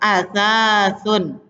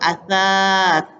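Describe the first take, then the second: First: The word ends with a vowel and n. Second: The word ends bare, without final vowel.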